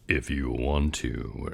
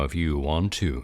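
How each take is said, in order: First: It is said in a much deeper voice. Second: It is said in an ordinary voice.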